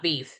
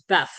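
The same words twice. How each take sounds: First: Said in the usual way. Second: "beef" said as "beff"; short e in "beef", rhyming with "deaf"; altered pronunciation. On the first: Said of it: "serves beef, not beef". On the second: Retold or imitated. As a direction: say "beef" with the vowel of "bed". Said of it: "not beef".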